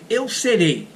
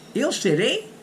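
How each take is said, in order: First: It is said with statement intonation. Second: It is said with question intonation. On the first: It asserts that I will be. "I say eu serei" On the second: It asks whether I will be. "In order to make the question, I say eu serei, eu serei. I just change the intonation"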